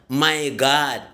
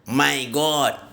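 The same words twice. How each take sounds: First: The last word sounds like 'God'. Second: The last word sounds like 'goat'. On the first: It means oh my Lord. The speaker calls it right. "Tapi yang betul" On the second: It means my goat. The speaker calls it wrong. "Itu jelas kambing itu"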